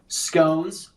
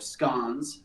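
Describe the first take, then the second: First: The word is said the American way. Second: The word is said the British way.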